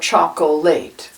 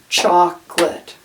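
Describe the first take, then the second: First: The word is said with three syllables. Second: The word is said with two syllables. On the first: "it looks like chocolate or chocolate" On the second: "Chocolate has two syllables"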